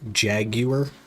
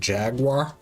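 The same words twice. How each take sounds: First: The word is said with non-American pronunciation. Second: The word is said with American pronunciation.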